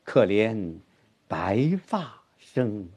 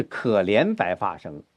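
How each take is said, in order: First: 白发 drawn out slowly after a pause, ending soft; stress on 白发. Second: 可怜 stressed, 白发生 passed over. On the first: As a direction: pause after 可怜, then stretch 白发 with weight. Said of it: "重音是白发". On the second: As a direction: put the weight on 可怜 at the start. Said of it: "不是可怜白发生". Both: Shown as a demonstration.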